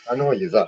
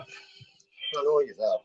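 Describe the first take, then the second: First: Said in the usual way. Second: Slow drawn-out taunt. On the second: Acted. Caller taunting booking dot com on camera, slow drawn-out tease. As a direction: stretch each word out, very slow and teasing.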